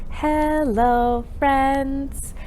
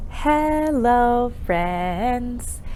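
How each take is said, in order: Both takes have the same delivery.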